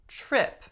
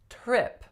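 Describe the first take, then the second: First: It begins with a ch-like sound. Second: It begins with a plain t sound. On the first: The speaker calls it right. "People really tend to say" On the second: The speaker calls it wrong. "So people do not say"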